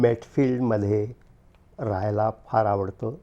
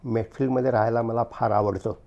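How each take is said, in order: First: It is said slowly. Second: It is said at normal speed.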